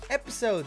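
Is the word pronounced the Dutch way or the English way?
English. The word is pronounced the English way. "mensen die zeggen van, hey, episode"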